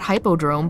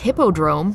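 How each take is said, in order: First: The first syllable sounds like 'hype'. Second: The first syllable sounds like 'hip'. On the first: The speaker calls it wrong. "and not hypodrome" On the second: The speaker calls it right. "it's hippodrome"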